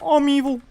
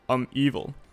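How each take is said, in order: First: It is said in a Kermit the Frog voice. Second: It is said in his normal voice.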